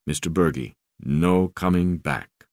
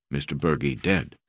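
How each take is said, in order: First: Crewman's voice. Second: Low, grave broken English; crewman's voice. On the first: African crewman breaks bad news. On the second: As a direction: say it plainly and heavily. Crewman tells Bergie died. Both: Acted.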